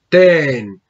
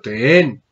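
First: The pitch stays level on the word. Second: The pitch rises on the word. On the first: The speaker calls it wrong. "O mejor, la pronunciación, perdón, debería ser ten" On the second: The speaker calls it right. "Como subiendo"

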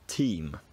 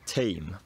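First: It is said in an RP accent. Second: It is said in a Cockney accent. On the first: "how RP speakers would say words" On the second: "how Cockney speakers would say words"

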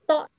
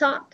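First: The word starts with a 'th' sound. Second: The word starts without a 'th' sound. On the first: The speaker calls it right. "Thought chữ thờ mà" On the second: The speaker calls it wrong. "Không phải thought"

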